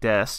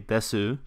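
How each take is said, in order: First: The final vowel is dropped. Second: The final vowel is clearly pronounced. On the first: "omit the last vowel sound if it ends a word. So like des" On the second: "you don't normally say desu"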